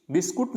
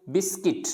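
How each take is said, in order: First: बिस्कुट ending in KUT; mispronounced बिस्कुट. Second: बिस्किट ending in KIT; correct pronunciation बिस्किट. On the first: Teacher warning against this form, बिस्कुट with U. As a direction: say बिस्कुट as bis-kut, U sounded. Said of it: "बिस्कुट नहीं बोलना". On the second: Teacher answering their own question, बिस्किट with short I. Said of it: "क्या पढ़ना है इसको". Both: Shown as a demonstration.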